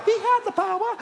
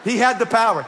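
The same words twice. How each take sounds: First: He had the power, jumping way higher; high repeat. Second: He HAD the power, pushed louder; stress on power. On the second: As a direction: lean hard on had. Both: Shown as a demonstration.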